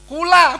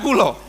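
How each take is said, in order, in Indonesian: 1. Vokal akhirnya bunyi 'a' terbuka. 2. Vokal akhirnya bunyi 'o' bulat. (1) "bahasa Jawa yang asli itu yang A" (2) "bukan kulo"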